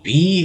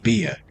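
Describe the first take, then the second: First: The name is said as one syllable. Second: The name is said as two syllables. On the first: "I've heard some people pronounce it just B" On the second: "other people pronounce it Bia"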